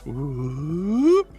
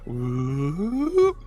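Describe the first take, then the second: First: The pitch goes up on the whoop. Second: The same.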